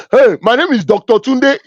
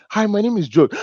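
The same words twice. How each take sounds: First: Self-important title-dropper, higher and punchy; Tunde. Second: George giving a simple introduction, lightly voiced, a little higher; ordinary introduction. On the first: Acted. Man introducing himself by his title, mock self-importance. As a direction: announce your title loudly and proudly, pitched up. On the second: George introducing himself without a title, modest greeting. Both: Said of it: "how people introduce themselves with titles".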